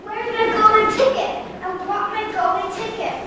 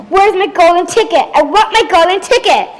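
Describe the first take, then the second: First: High, far-off demanding cry; distant screaming demand. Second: Loud, higher demanding yell; retold screaming. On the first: Acted. Veruca demands her ticket before entering, a distant high cry. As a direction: call out high from a distance, insistently. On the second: Veruca re-enacts screaming at her father for a ticket, loud yell. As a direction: re-enact a tantrum, louder and higher. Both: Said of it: "I was screaming at".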